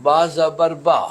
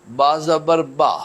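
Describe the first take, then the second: The two takes are said the same way.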